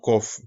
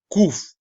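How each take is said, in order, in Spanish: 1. La vocal suena como 'o'. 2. La vocal suena como 'oo'. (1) "y no Kof" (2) "esa es la pronunciación Kuf"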